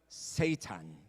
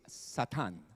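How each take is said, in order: First: The word is pronounced the English way. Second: The word is pronounced the Hebrew way. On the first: "sa English, ang pronunciation" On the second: "Pero sa Hebrew, it's"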